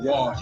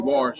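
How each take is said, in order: First: The word is said without any r sound. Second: The word is said with an added r sound. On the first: "instead of wash" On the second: "I say wash ... put a little R in there sometimes"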